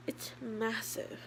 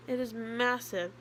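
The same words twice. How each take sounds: First: "It's massive" drawn out slowly and softly; slow hushed awe. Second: "It is massive" with "is" pressed firmly; stress on IS. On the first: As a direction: let "massive" sink in, slow and soft. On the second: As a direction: land hard on "is" to insist. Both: Real, not acted.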